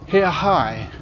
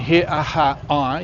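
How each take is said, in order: First: The middle sounds merge into one shorter syllable. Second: Each syllable is said separately and fully. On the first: "with the two R sounds merging into one"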